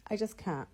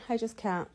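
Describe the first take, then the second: No difference in how they are said.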